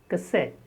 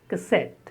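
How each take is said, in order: Both takes have the same delivery.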